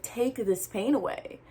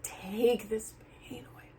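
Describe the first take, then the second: First: Said in the usual way. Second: Hushed retold plea to God; soft desperate whisper; whispered prayer. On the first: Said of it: "I was like". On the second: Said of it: "like, like".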